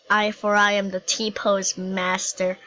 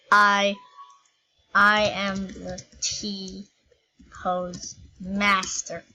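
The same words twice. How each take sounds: First: Said in the usual way. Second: Very slow, drawn-out mock-epic declaration; grand proclamation. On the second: To viewers, boasting as T-pose master, slow mock-epic proclamation. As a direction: proclaim it slowly like a conquering overlord.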